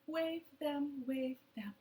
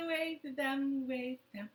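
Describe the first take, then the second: No difference in how they are said.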